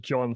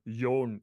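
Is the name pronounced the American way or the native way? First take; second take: American; native. First: The name is said with an American pronunciation. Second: The name is said with its native pronunciation. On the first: This form is easier for an American audience. "I pronounce it as John for the American audience" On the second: This is the official form of the name. "officially it's uh, Jon"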